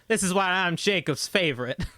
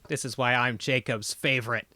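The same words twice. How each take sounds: First: It is said in a put-on southern accent. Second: It is said in the speaker's ordinary accent.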